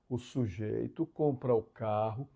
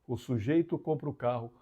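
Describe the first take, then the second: First: It is spoken very slowly. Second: It is spoken at a normal pace.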